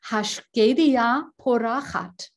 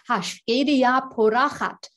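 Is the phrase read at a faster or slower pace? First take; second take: slower; faster. First: It is read at a slower pace. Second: It is read at a faster pace.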